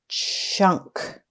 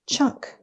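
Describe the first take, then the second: First: The word is stretched out slowly, sound by sound. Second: The word is said quickly as one smooth unit. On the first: "Let's tap and stretch" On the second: "Say it fast"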